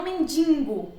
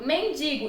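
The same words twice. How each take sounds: First: "mendigo" with an added n: men-DIN-go; wrong pronunciation. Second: "mendigo" with oral i: men-DI-go; no nasal before g in "mendigo"; correct pronunciation. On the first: Teacher showing the improper form, "mendigo" as mendingo. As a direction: nasalize the i of "mendigo". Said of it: "e não mendigo". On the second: Teacher giving the proper form, clean "mendigo". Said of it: "a forma adequada e a forma inadequada". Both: Shown as a demonstration.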